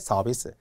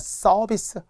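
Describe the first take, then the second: First: The first consonant is soft and plain. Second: The first consonant is tense and hard. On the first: The speaker calls it right. "자연스럽게 서비스" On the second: The speaker calls it wrong. "이렇게 된 소리는 쓰지 않아야 되죠"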